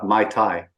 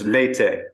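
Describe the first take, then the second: First: It is pronounced like the drink 'mai tai'. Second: It is not pronounced like the drink 'mai tai'. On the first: The speaker calls it wrong. "I kept saying uh, Mai Tai, which is the drink" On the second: The speaker calls it right. "It's Métis"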